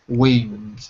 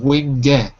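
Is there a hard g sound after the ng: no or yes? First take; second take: no; yes. First: The ng ends cleanly with no g release. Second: The ng is followed by an audible g release. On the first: The speaker calls it right. "try to just stop when your tongue touches your throat" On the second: The speaker calls it wrong. "Instead of wing ge, instead of the focusing on the sound eh"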